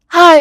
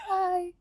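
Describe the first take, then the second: First: It is said loudly, breathing on the mic. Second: It is said softly and demurely.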